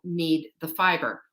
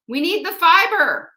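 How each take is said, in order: First: Said in the usual way. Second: Fiber punched much higher and louder; emphatic repeat. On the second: Real, not acted. Host drives her point home to viewers, loud emphatic.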